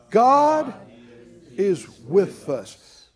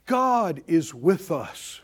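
First: Said out loud. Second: Said in the usual way. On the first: Shown as a demonstration. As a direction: proclaim "God" with force, then settle. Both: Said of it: "somebody just say that out loud".

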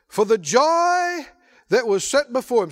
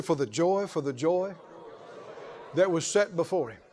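First: Proclaimed. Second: Lower, softer prompt for the crowd; softer call and response. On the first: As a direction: declare it to the whole church. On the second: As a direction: lead them gently in the repeat. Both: Shown as a demonstration. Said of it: "Somebody say".

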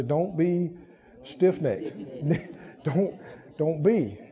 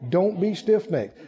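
First: Quiet and chuckling; a hushed, amused nudge to a neighbor; soft laughing aside. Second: Said in the usual way. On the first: Shown as a demonstration. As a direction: say it softly, then break into a laugh. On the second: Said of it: "What you tell your neighbor".

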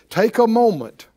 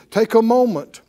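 No difference in how they are said.

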